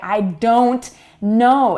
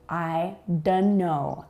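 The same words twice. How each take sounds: First: The T in "don't" is clearly pronounced. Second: The T in "don't" is dropped. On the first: The speaker calls it wrong. "It can sound very dramatic if you say" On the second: The speaker calls it right. "Notice that we do not say the T"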